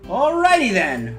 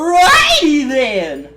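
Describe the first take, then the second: First: It is said in the usual character voice. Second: It is said as an exaggerated comic impression. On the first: It is the character speaking normally. "now I'm gonna go back to my Kane voice" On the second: It quotes a famous comedy catchphrase. "Sorry, I have to sound like. ... it's definitely from Jim Carrey"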